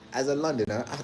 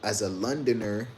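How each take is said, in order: First: It is said in a London accent. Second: It is said in the speaker's own accent.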